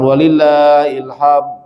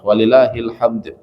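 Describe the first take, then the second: First: The final d is flat, without a bounce. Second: The final d is released with a bounce. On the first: The speaker calls it wrong. "Bukan walillahil hamd. Kalau ini artinya sudah berubah" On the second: The speaker calls it right. "tentunya ada disebutnya qalqalah"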